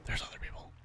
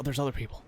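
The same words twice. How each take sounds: First: "There's other people" repeated in a breathless whisper; hushed whispered echo. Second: Said in the usual way. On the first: Real, not acted. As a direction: whisper it as if not to be overheard. Repeats the discovery under breath.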